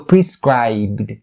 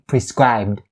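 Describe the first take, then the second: First: The b and d sounds are clearly released. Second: The b and d sounds are stopped, not released. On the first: "try to pronounce these sounds correctly and clearly" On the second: "you can make them stop by saying"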